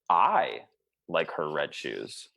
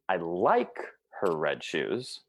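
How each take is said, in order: First: The first word carries the stress. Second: The second word carries the stress. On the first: Someone else dislikes them. "if I actually just emphasize one word" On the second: They are liked but not loved. "Or second word"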